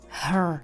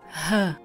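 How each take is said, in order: First: Said with a slight R sound at the end. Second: Said with no R sound at the end. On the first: "Americká angličtina zní hrčivěji a tohle slovíčko by znělo her" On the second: "To byla britská angličtina, kde to R není vůbec slyšet"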